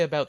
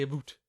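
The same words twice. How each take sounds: First: Said in the usual way. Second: "about" said as "a boot"; long OO in place of the OW in "about"; Canadian "about". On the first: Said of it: "they don't say about". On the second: Shown as a demonstration. Explaining Canadian speech to friends, "about" as "a boot". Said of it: "they say a boot".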